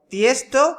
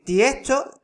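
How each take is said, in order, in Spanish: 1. La S antes de la T se pronuncia claramente. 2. La S antes de la T suena como una H.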